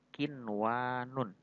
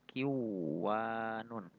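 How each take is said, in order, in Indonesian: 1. Bunyi n diucapkan jelas sebelum w. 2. Bunyi n melebur ke dalam bunyi w. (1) "ini kinwanun" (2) "tidak boleh dibaca kiwanun"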